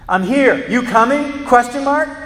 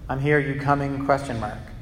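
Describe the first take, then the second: First: It is said loudly and forcefully, like all caps. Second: It is said in a calm, normal voice.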